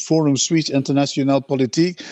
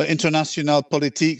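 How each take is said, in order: First: French accent. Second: Said in the usual way. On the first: Shown as a demonstration. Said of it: "I forgot my French accent". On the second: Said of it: "Sorry, I forgot my French accent".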